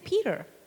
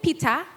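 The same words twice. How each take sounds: First: The name is said with an American accent. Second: The name is said with a Kenyan accent. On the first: This is how locals say it. The speaker calls it right. "I've learned how to say it right" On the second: This is how it was said growing up. The speaker calls it wrong. "the way I say it when I grew up in Kenya"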